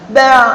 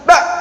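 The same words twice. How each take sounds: First: The final sound is held but leaks out slightly. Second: The final sound is stopped abruptly like a glottal stop. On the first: The speaker calls it right. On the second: The speaker calls it wrong. "dibaca syiddah ... serupa dengan hamzah"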